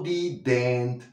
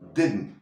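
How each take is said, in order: First: An extra e vowel before the n; sharp i. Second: No vowel before the n; the i is soft. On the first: The speaker calls it wrong. "no didn't" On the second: The speaker calls it right. "no hay una E y la I es menos aguda"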